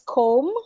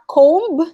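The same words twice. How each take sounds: First: No B sound is heard at the end. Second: A B sound is heard at the end. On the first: The speaker calls it right. "silent B" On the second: The speaker calls it wrong. "it's not comb"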